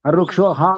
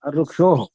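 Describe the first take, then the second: First: The final h is followed by an 'a' vowel. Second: The final h is followed by an 'o' vowel. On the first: The speaker calls it wrong. "కాదు" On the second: The speaker calls it right. "అక్కడ ఆ ఉంటే ఆ, ... ఓ అంటే ఓ చెప్పాలి"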